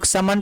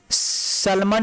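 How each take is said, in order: First: "समन" said as sa-man, no L; correct silent L. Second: "सलमन" said slowly as sal-man; wrongly sounded L. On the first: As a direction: skip the L in "समन". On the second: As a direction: make the L heard in "सलमन". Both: Shown as a demonstration. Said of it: "इसको समन पढ़ते हैं".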